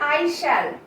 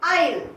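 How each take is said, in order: First: It is said as two full words. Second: It is said as one contracted syllable. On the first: "প্রথম রয়েছে আই শ্যাল" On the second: "তার pronunciation হলো আইল"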